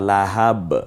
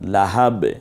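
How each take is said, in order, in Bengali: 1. শব্দটি একটি স্বরবিহীন ব্যঞ্জনে শেষ হয়। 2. শব্দটি একটি স্বরবিহীন ব্যঞ্জনে শেষ হয়।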